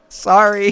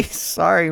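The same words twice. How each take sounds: First: High, loud sorry; yelped sorry; loud apology. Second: Sorry through a laugh, higher; sheepish laughing sorry. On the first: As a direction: blurt the apology. Apologizing after breaking sample. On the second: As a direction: giggle the apology. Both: Real, not acted.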